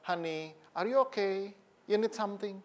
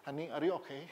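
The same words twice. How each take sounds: First: Imitated affectionate husband. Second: Very soft, understated attempt; awkward imitated tenderness. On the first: Elderly husband checking on his wife, imitated tenderness. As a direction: check on her gently, unhurried. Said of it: "masih mesra suami istri". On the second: Stiff husband trying to copy tenderness, awkward and soft. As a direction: ask sweetly but hesitantly, not quite managing it. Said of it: "Meskipun nadanya belum bisa gitu".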